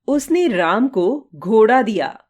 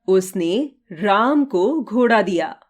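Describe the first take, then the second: First: The stress is on घोड़ा. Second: The stress is on राम.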